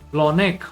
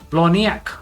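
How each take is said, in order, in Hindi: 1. अंत 'nek' जैसा सुनाई देता है, बिना 'ya' की ध्वनि के। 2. अंत 'nyak' जैसा सुनाई देता है, 'ya' की ध्वनि के साथ।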